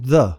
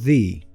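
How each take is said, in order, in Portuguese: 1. A palavra termina em uma vogal neutra e curta. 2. A palavra termina em uma vogal longa 'ee'. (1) "se a palavra seguinte começa com som de consoante, ele vai ser pronunciado como the" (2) "se a palavra seguinte começa com som de vogal, ele vai ser pronunciado the"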